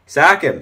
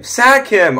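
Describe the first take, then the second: First: Said in the usual way. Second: Shout. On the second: Real, not acted. Urging louder on repeat.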